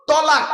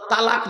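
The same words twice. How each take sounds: First: তলাক high and loud, heavy t with rounded o; correct form tolak. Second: তালাক with a light t and open a; wrong form talak. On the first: Preacher correcting the congregation, loud heavy tolak. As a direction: punch out তলাক as to-laaq. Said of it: "শব্দটা হলো". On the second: Preacher rejecting the common divorce word, light talak. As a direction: say তালাক as everyday ta-lak. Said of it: "শব্দটা তালাক নয়". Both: Shown as a demonstration.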